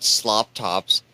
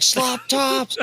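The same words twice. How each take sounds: First: Said in the usual way. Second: High, yelled Slop Tops with Slop and Tops both shouted up high; shouted catchphrase. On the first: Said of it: "he yelled". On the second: Retold or imitated. Player yelling the catchphrase at the table, high shout. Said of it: "He's like".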